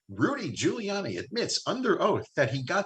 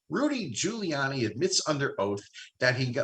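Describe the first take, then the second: First: It is read in a put-on announcer voice. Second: It is read in a normal speaking voice.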